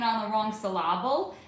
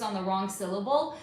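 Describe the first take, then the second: First: "syllable" said as sil-LAB-ul, stress on the middle; misplaced stress. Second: Said in the usual way. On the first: Retold or imitated. Teacher making fun of misplaced emphasis, "syllable" said sil-LAB-ul. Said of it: "put the emphasis on the wrong syllable". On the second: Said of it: "put the emphasis on the".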